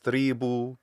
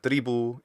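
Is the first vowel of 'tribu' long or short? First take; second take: long; short. First: The first vowel is held long. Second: The first vowel is kept short. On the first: The speaker calls it wrong. "This first e vowel is too long" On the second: The speaker calls it right. "It should be short"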